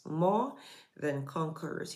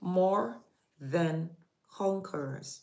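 First: "more" rising, "than conquerors" falling soft; repeated for emphasis, "more" rising; stress on more than. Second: More lifted, than conquerors drawn out; preacher stressing "more" slowly. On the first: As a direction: hold up "more", let "than conquerors" fall. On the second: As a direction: lean on "more" then draw out "than conquerors". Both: Shown as a demonstration. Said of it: "My emphasis has been on those two words".

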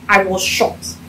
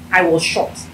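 No difference in how they are said.

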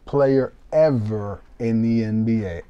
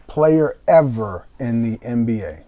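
The two takes are said the same way.

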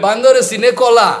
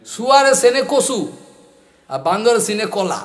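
First: Rapid, loud rustic Bangladeshi Bengali rattle; crude Bangladeshi Bengali. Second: Rapid rustic Bangladeshi Bengali, rattled off; crude Bangladeshi Bengali. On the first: A teacher mimicking an old Bangladeshi speaker's crude Bengali, rapid. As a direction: fire off the Bangladeshi Bengali saying fast and loud. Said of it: "crude Bengali language". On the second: Teacher quotes a Bangladeshi man's crude Bengali proverb, rapid. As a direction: rush the Bangladeshi Bengali proverb, a bit raised. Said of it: "It's crude language, Bengali". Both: Retold or imitated.

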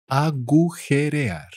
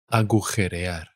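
First: "Agujerear" stretched syllable by syllable, higher. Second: Said in the usual way. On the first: Shown as a demonstration. Teacher repeats word drawn out.

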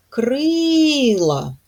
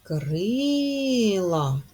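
First: Крила, the first syllable stressed, higher and louder. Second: Крила, the first syllable gently stressed; softer repeat of the stress. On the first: (наголос на першому складі: КРИла) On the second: (спокійно повторити КРИла) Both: Shown as a demonstration. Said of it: "Ми чуємо и наголошеним".

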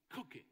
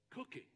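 No difference in how they are said.

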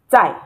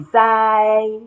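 First: "Tai" short, dropping in pitch; falling tone on Tai. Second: "Zai" held long, high and level; flat tone on Zai. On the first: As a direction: drop the sound on "Tai". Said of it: "because it is the fourth tone". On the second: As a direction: stretch "Zai" on one high, even pitch. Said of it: "If it is the flat tone". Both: Shown as a demonstration.

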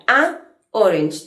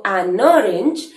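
First: "A orange" con un corte marcado entre la a y orange, sin unir; corte entre palabras. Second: "an orange" uniendo la n con la o, sin pausa; sonidos unidos. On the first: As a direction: separa "A" y "orange" con una pausa seca. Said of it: "Tengo que hacer ahí como un corte". (di "A orange" cortando el sonido entre las dos palabras) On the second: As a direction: enlaza "an" y "orange" de forma fluida. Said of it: "uniendo la N con la O". (di "an orange" ligando la n con la o) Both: Shown as a demonstration.

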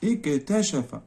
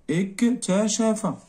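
First: Said in the usual way. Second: Slow, higher dictation; اكتشف drawn out slowly, pitched up. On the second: Shown as a demonstration. Teacher dictating the verb to the class, slow and high.

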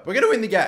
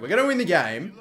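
First: Voice breaking. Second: Said in the usual way. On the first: Real, not acted. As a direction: pitch jumps up as the voice cracks. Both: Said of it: "how about that for a voice break".

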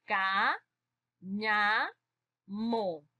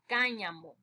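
First: Ca, ña, mo split into separate beats with pauses; teacher breaking the word into syllables. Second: Said in the usual way. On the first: Shown as a demonstration. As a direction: spell out each syllable slowly for the class. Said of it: "vamos a separar entonces". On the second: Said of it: "vamos a separar".

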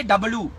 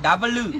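First: Said in the usual way. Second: "W" drawn out slowly in an Indian accent; slow, exaggerated Indian "W"; Indian pronunciation. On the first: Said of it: "we don't say W". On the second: Shown as a demonstration. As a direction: stretch "W" out as an Indian-accent letter name. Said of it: "We say W".

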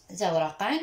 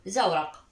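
First: زورقًا ending in a rising "-an"; tanween ending. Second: زورق stopped on a bare q, "zawraq"; sukun ending. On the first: Teacher showing the misspelled word to pupils, tanween ending. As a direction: say زورقًا with a final n sound, "zawraqan". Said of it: "اكتبها بالخطأ الإملائي زورقًا". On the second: Teacher showing the word with sukun, consonant ending. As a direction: end زورق on the consonant, no vowel or n. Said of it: "الحرف الأخير أضع له سكون". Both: Shown as a demonstration.

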